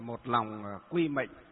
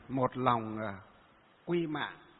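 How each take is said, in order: First: The last word is pronounced with the vowel 'ê'. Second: The last word is pronounced with the vowel 'a'. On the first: This is the Northern reading of the character. "ở miền Bắc chúng ta đọc là mệnh" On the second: This is the Southern reading of the character. "còn ở miền Nam đọc là mạng"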